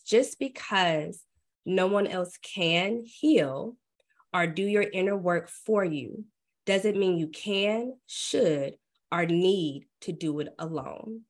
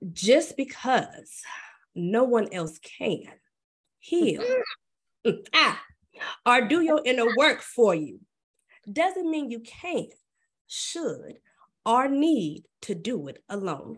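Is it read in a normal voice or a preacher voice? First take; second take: normal voice; preacher voice. First: It is read in her normal voice. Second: It is read in a put-on preacher voice.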